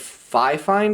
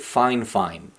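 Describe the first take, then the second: First: It is not said as two words 'fine fine'. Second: It is said as two words 'fine fine'. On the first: "So it's like Fifine" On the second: "they pronounce it fine fine, like it's in two words, like two syllables"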